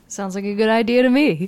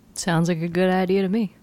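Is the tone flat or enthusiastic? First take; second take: enthusiastic; flat. First: It is said warmly, with enthusiasm. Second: It is said flatly, without enthusiasm.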